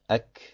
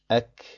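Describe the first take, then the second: First: The final consonant ends with free flowing breath. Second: The same.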